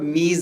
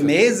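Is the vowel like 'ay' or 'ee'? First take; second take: ee; ay. First: The vowel sounds like 'ee'. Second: The vowel sounds like 'ay'. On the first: This is the Persian pronunciation. "इसको फारसी में बोलेंगे तो मीज़" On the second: This is the Urdu pronunciation. "जैसे मेज़ है ना"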